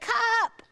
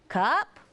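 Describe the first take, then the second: First: It is said as a demanding request. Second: It is said as a questioning word. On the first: The child wants his cup. "because he wants his cup" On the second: The child asks whether it is his cup. "he's asking, is that my cup?"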